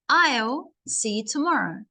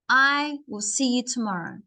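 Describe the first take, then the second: First: I and will are joined into one syllable. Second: I and will are said as separate words. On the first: "then you start to connect your subject and your verb" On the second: "do not connect them. Just say I will"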